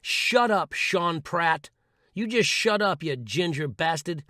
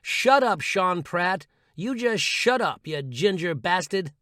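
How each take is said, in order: First: Firm shout at the inner voice; telling off inner critic. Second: Shouted together. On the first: Telling the inner critic to shut up, firm shout. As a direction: snap back at the critic. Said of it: "and say". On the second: Leading listeners in a shout at the critic, louder. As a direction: yell it with conviction, slowly. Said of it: "say it with me". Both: Shown as a demonstration.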